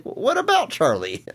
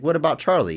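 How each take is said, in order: First: Higher, slower acted plea; emphatic repeated suggestion. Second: Retold offhand suggestion, slightly raised pitch; casual suggestion. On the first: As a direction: draw it out high to push the idea. Repeats the quote more emphatically. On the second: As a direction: float the idea at a normal pace. First take of a retold suggestion.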